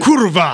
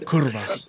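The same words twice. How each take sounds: First: It is said angrily, with strong force. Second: It is said calmly, without much force.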